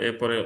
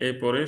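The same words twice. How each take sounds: Both takes have the same delivery.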